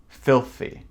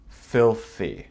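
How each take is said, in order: The two takes are said the same way.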